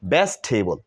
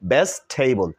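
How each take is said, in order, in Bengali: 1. শব্দটি তিনটি সিলেবলে উচ্চারিত হয়। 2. শব্দটি তিনটি সিলেবলে উচ্চারিত হয়।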